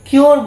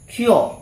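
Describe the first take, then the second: First: The final r sound is pronounced. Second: The final r sound is silent. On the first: The speaker calls it wrong. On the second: The speaker calls it right.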